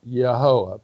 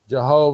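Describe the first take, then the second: First: The word begins with a Y sound. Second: The word begins with a J sound. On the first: The speaker calls it right. "pronounced Yehovah" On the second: The speaker calls it wrong. "the same word that we get uh, Jehovah from"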